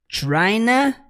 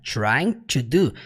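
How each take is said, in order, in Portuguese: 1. Trying to é reduzido a uma só palavra, tryna. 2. Trying e to são ditos como palavras separadas e completas. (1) "ele simplesmente contrai para tryna" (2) "ele não fala trying to do"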